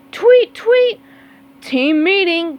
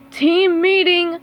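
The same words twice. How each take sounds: First: High, loud whistle then summons; calling out. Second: Slow, high, loud summons; calling out. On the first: Squidward calling the team on race day, loud. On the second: Squidward summoning his team at practice, loud call. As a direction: call the team over, drawn out. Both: Acted. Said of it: "called Squidward".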